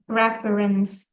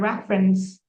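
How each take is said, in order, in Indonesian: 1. Kata itu diucapkan dengan tiga suku kata penuh. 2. Vokal di tengah dihilangkan, jadi hanya dua suku kata. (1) "Bukan reference" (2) "No, the reference"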